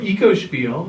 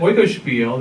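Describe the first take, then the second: First: The first syllable sounds like 'eco'. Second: The first syllable sounds like 'oy'. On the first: "or Ecospiel is the other pronunciation" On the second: "this is an Oikospiel that Andy mentioned"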